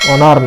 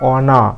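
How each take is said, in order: First: The word ends with an audible r sound. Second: The word ends on a vowel without r. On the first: The speaker calls it wrong. "অনার না" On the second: The speaker calls it right. "রটা অনুচ্চারিত থাকবে"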